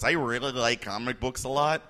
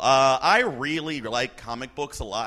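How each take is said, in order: First: It is said in a natural normal voice. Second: It is said in a weird put-on voice.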